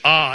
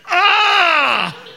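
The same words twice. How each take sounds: First: It is said as a plain, neutral word. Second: It is said as a painful groan.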